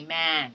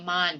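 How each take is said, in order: First: "man" with the open front ae; open ae sound. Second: "man" with a flat a; the wrong way, a as in father. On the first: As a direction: correct ae in "man". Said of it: "but you say man". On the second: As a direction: mistaken a in man. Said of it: "You do not say man". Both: Shown as a demonstration.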